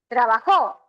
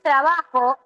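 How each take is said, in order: First: The stress is on the last syllable. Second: The stress is on the second-to-last syllable. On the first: "pero también ¿qué puedo decir?" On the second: "Yo puedo decir trabajo"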